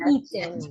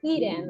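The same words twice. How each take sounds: First: The t is pronounced clearly and crisply. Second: The t is softened into a quick flap. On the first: "in the British English, we pronounce more the letter T" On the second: "in the American English, we say eaten, like with the letter R"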